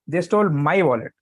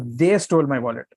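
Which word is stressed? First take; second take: my; They. First: The stress is on "my". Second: The stress is on "they".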